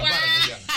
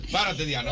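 First: High, loud, laughing plea. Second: Said in the usual way. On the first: Retold or imitated. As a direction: beg through laughter. (súplica entre risas, aguda y fuerte) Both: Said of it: "y le hacía así".

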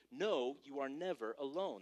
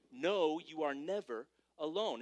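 First: Said in the usual way. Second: Each word laid down slowly for the notes; slow, weighty repeat. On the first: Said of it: "let's just get that down for point number three". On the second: Shown as a demonstration. Slow emphatic repeat. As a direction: pastor repeats the point slowly. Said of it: "That's point number three".

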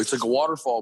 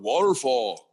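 First: Said in the usual way. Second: Lightly imitated small son, pitched up and drawn-out; cute little deep voice. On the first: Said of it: "I'd be like". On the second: Dad telling a friend how his son says it, cute imitated kid voice. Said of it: "cute little deep voice".

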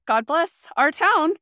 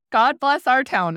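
First: Higher, louder, slow, weight on town; exasperated sarcasm about the hometown; sarcastic blessing. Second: Louder, slow, weight on bless; weary irony repeating the blessing; sarcastic blessing. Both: Retold or imitated. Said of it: "And I was like".

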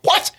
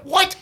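First: Said in the usual way. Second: Much higher, disbelieving yelp; incredulous what. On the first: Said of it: "I'm like". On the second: Retold or imitated. Host recalls his shock at the boy's judgment, incredulous. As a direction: squeak it out in disbelief. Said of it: "Like, I'm like".

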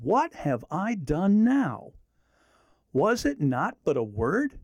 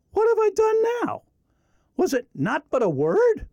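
First: Slow, gentle reply; calm, measured reply; David answering calmly. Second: High, pleading protest; a younger brother defending himself, higher; mild hurt protest; David protesting. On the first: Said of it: "Let me read it again". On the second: David answers angry brother, read aloud. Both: Acted.

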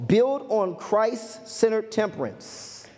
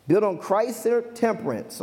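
First: Slow, deliberate announcement of a point; unhurried, weighty delivery; slow, spaced-out emphasis. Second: Said in the usual way. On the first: Real, not acted. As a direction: stretch it out phrase by phrase. Announces the point slowly, then repeats.

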